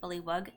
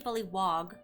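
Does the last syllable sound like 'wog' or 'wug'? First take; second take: wug; wog. First: The last syllable sounds like 'wug'. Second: The last syllable sounds like 'wog'. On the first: It follows the spelling. "it's spelled with a W U G, so I usually say bullywug" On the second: Some other people say it this way. "Some people say bullywog"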